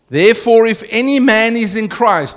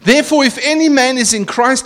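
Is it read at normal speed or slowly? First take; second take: slowly; normal. First: It is read slowly. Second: It is read at normal speed.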